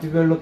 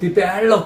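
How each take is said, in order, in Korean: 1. 이 단어는 아주 조용히, 속으로 말해요. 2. 이 단어는 큰 소리로 말해요. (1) "그냥 속으로만 디벨롭 한 거" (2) "큰 소리 내본 거"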